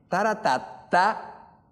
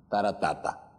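First: "Taratata" slow and high, last syllable rising; slow singsong "Taratata" climbing at the end; question melody in syllables. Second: "taratata" falling low at the end; singsong "taratata" that drops to a close; statement melody in syllables. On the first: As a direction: hum out a question's tune on "Taratata", stretching it upward. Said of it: "tienes que cantar de cierta manera esa frase". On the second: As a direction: give a statement's tune on "taratata", stepping down. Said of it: "si no, no es una pregunta". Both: Shown as a demonstration.

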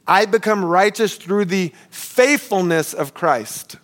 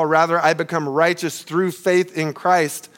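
First: Slow, weighty, each word leaned on, especially become; slow emphatic retranslation. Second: Said in the usual way. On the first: Shown as a demonstration. Pastor stressing the literal translation to the congregation, slow and weighty. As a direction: lay down I become righteous through the faithfulness of Christ like a reveal. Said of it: "catch this". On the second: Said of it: "this can literally be translated".

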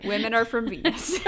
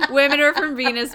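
First: Said through a laugh. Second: Louder, with the joke building; louder giddy repeat. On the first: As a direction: let a laugh break into the line. Joking about the book title. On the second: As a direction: punch it out louder as the joke lands. Repeating the joke more loudly. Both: Real, not acted.

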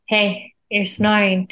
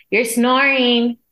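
First: Said in the usual way. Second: Higher, drawn-out "snoring"; retold exasperated wake-up call, slow and raised; insistent complaint. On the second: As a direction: stretch out "snoring" to nudge a sleeper awake. Repeats louder to waking snoring husband.

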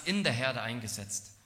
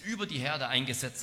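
First: In picked out as the correction; stress on in. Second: Über picked out with emphasis; stress on über. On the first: Preacher giving what Paul does say, stress on in. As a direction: lean on the small word in. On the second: Preacher correcting a misreading of Paul, stress on über. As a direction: lean on über as the rejected word. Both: Shown as a demonstration. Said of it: "dass Paulus nicht sagt".

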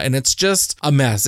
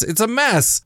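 First: Said in the usual way. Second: "mess" jumps much higher, falling; exasperated repeat. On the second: Real, not acted. Vlogger despairing over a book that upset her, high exasperated. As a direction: throw up your hands on "It's a mess".

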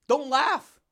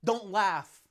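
First: Higher, louder don't laugh; louder mock scold. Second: Said in the usual way. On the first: Mocking a critic who scolds his laughing, louder. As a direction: snap it back louder, mocking. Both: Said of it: "you laugh too much".

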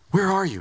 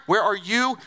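First: Said in the usual way. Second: "you" lifted and leaned on with a rising end; stress on singular you. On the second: Shown as a demonstration. God singling out Adam, stressing "you". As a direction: make "you" mean Adam alone, pushed up at the end. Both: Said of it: "was a very singular "you".

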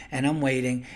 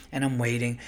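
The two takes are said the same way.

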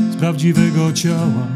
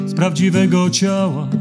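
No difference in how they are said.

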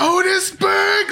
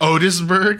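First: "Otisburg!" bellowed very high, loud and slow; yelled out. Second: Rising, raised quizzical "Otisburg?"; puzzled question. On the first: Lex yelling at his minion Otis, drawn-out shout. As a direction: belt out "Otisburg!" like a proud villain. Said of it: "yells it out". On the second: Lex asking his minion Otis, quizzical. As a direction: ask "Otisburg?" in mock disbelief, pitch going up. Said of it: "He's like". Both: Retold or imitated.

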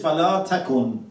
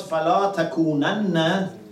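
First: "فلا تكن" ending on a single closed n; without emphatic nun. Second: "فلا تكونن" with a doubled, held final nun plus a short a; emphatic nun. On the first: Teacher quotes this verse for comparison, without emphatic nun. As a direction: stop "فلا تكن" on a plain nun, no added syllable. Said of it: "one is without emphasis". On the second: Teacher quotes the previous verse for comparison, emphatic nun. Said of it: "one is with emphasis". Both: Shown as a demonstration.

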